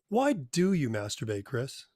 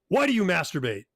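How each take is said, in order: First: It sounds like a curious question. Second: It sounds like an accusation.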